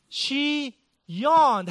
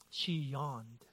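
First: Higher and louder, hammed-up indignation; mock outrage. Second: Low, soft and flat, letting it land; deadpan drop. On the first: Preacher pretending offense at his wife's yawn, mock outrage. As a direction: play the wounded husband, big and high. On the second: Real, not acted. Preacher revealing his wife's yawn, low deadpan. Punchline after taxes story.

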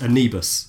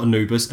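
First: Anubis with an EE middle, a-NEE-bis; corrected Anubis pronunciation. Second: Anubis with an OO middle, a-NOO-bis; mispronounced Anubis. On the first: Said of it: "So not Anubis". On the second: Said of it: "So not Anubis, Anubis". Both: Shown as a demonstration.

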